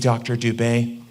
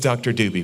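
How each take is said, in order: First: The name ends in an 'ay' sound. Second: The name ends in an 'ee' sound. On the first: The speaker is trying to sound careful and correct. The speaker calls it wrong. "They don't want to pronounce it wrong" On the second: This is how the name is actually said. The speaker calls it right. "It is Doctor Doobie"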